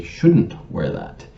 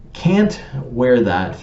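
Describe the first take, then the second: First: Slow, with "Shouldn't" leaned on and falling; stress on SHOULDN'T. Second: Slow, with "Can't" leaned on and falling; stress on CAN'T. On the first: Grammar police giving the correct word, slow with stress on "Shouldn't". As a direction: correct her with a slow "Shouldn't wear that", hitting "Shouldn't". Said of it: "she should say". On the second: Grammar police quoting the wrong word, slow with stress on "Can't". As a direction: drag out "Can't wear that", hitting "Can't". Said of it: "denotes ability". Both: Shown as a demonstration.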